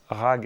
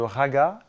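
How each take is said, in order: First: The word ends on its final consonant. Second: The word ends with a final vowel sound.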